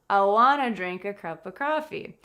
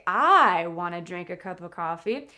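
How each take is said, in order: First: The first word I is unstressed. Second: The first word I is stressed. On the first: The speaker calls it right. "the subject, I, is not stressed" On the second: The speaker calls it wrong. "I don't say"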